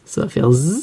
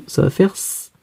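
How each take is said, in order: First: Z as a buzzing zzz; Z sound. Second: S as a soft hissing sss; S sound. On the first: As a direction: end on a held voiced zzz for Z. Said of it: "Si je mets un S". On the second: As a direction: end on a held voiceless sss for S. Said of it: "Si je mets deux S". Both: Shown as a demonstration.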